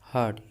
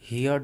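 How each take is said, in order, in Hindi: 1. r की ध्वनि silent रहती है। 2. r की ध्वनि साफ़ बोली जाती है। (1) "इसे हर्ड" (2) "हियर्ड नहीं पढ़ते हैं, हियर्ड गलत है"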